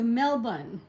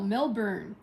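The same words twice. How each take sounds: First: It is said with an Australian pronunciation. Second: It is said with an American pronunciation. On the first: The speaker calls it right. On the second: The speaker calls it wrong.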